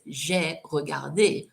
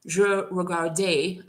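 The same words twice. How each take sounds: First: Slow "J'ai regardé" with a clear "zhay"; careful past-tense pronunciation. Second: Slow "Je regardais", schwa "je" but sounded final é; students' muddled pronunciation. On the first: Shown as a demonstration. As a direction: sound both "J'ai" and the final é of "regardé". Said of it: "So make sure you say". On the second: Retold or imitated. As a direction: blend present "Je" with past-like "-day" on "regardais". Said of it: "kind of in between the two".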